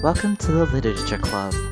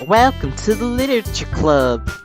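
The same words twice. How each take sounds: First: It is said without a Southern accent. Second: It is said in a put-on Southern accent.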